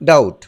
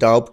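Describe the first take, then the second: First: No b sound is heard before the t. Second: A b sound is heard before the t. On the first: The speaker calls it right. "বির উচ্চারণ silent থাকে, তাই এটির উচ্চারণ হবে ডাউট" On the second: The speaker calls it wrong. "এটি কিন্তু ডাউট নয়"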